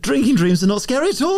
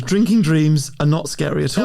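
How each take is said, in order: First: It is said with lively enthusiasm. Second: It is said flatly, without conviction. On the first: The speaker calls it right. "be really enthusiastic" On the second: The speaker calls it wrong. "you didn't sound convincing enough then"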